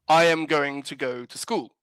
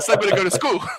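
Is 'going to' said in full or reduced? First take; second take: full; reduced. First: Every word is carefully and fully articulated. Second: The words are reduced and run together.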